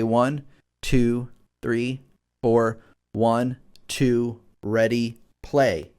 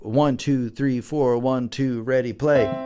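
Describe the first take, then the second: First: The counting is steady and not too fast. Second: The counting is rushed and too fast.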